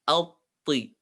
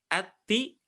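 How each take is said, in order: First: Alti thick and rounded, tongue raised; the thick right alti; heavy alti. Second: The thin wrong ati. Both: Shown as a demonstration.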